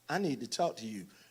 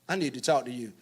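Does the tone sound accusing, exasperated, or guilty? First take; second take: guilty; exasperated. First: It sounds guilty and softly placating. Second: It sounds exasperated about someone else.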